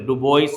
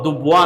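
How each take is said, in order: First: The name ends with an 'oyis' sound. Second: The name ends with a 'wa' sound. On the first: "డుబోయిస్ అనొచ్చు అనుకోండి" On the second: "దుబ్వా అనాలి కరెక్ట్గా పలకాలంటే"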